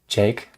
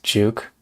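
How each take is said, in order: First: The name is said with an 'ay' vowel. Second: The name is said with an 'oo' vowel. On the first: The speaker calls it right. "I think it might be pronounced Jake" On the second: The speaker calls it wrong. "is it pronounced Juke?"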